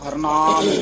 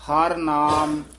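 First: The two words are run together as one. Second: The two words are said as separate words. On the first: The speaker calls it wrong. "ਇਹ ਇਕੱਠੇ ਕਹਿ ਦਿੰਦੇ ਹਾਂ" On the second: The speaker calls it right. "ਐ ਬੋਲਨੇ ਆ ਪਦ"

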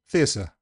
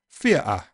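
First: The t is replaced entirely by an s sound. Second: The t is replaced by a glottal stop. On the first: "it just goes the whole hog and becomes s" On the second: "if you say theatre in Cockney, you'll get a glottal stop"

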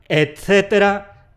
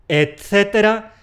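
Both takes have the same delivery.

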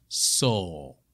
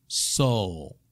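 No difference in how they are said.

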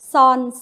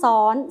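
First: The syllable is said on a level mid tone. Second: The syllable is said on a high tone. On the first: "เสียงสามัญ" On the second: "และตรีค่ะ"

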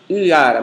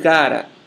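First: The u glides straight into the a. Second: A voiced friction sound separates the u and a. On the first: The speaker calls it wrong. "Em geral, não é pronunciada uara" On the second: The speaker calls it right. "aparece uma consoante fricativa velar sonora entre o U e a vogal seguinte"

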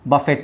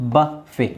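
First: The word ends with a clear t sound. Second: The word ends on a vowel, no t. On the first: The speaker calls it wrong. "ಬಫೆಟ್ ಅಲ್ಲ" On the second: The speaker calls it right. "ಟಿ is silent"

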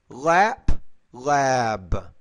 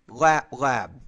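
First: The second word has a longer vowel. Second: Both words have vowels of equal length. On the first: The speaker calls it right. "I'm going to say these not in exactly the same time" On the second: The speaker calls it wrong. "You're saying"

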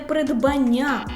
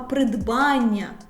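First: The stress is not on the 'ан' syllable. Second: The stress is on the 'ан' syllable. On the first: The speaker calls it wrong. "не придбання" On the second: The speaker calls it right. "Наголошений суфікс «ан»"

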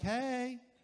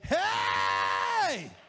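First: It is said quietly and softly. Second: It is said loudly as a shout.

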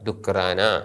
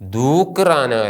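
First: The first vowel is kept short. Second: The first vowel is held long. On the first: The speaker calls it right. "കാപ്പ് എന്ന അക്ഷരത്തിന് സ്വരമില്ലാത്തത് കൊണ്ടാണത് ഹ്രസ്വമായിരിക്കുന്നത്" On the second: The speaker calls it wrong. "ദൂക്ക് റാന അല്ല"

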